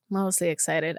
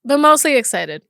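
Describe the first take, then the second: First: Softer and lower, to herself; quiet reminder to self. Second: Firm and excited. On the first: Host repeats it to herself, softly reassuring. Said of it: "said it louder before". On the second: Host tells listeners about next year's plans, firmly excited. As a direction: stress mostly, spoken up. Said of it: "repeats it quietly". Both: Real, not acted.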